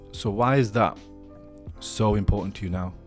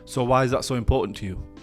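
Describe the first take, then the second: First: It is said slowly and curiously. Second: It is said at a normal pace.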